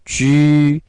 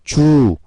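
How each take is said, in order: First: The vowel is a rounded front 'ü' sound. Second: The vowel is a plain back 'u' sound. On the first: The speaker calls it right. "입술 앞으로 쭉 내밀고 하는 발음" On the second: The speaker calls it wrong. "주, 추, 수 뭐 이런 식으로 읽는데"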